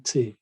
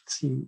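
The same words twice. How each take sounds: First: "T" said as the German letter, teh; German letter name "T", tay without a glide. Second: "T" said as the English letter, tee; English letter name "T", rhyming with see. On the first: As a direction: say "T" with an ay-like German vowel. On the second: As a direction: say "T" with a long ee vowel. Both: Shown as a demonstration. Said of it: "English T is German T".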